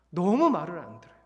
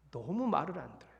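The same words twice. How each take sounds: First: Louder, frustrated complaint; a fed-up sigh of a complaint; exasperated louder lament. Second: Said in the usual way. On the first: Real, not acted. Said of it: "repeated lament, louder take". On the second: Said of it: "repeated lament, first take".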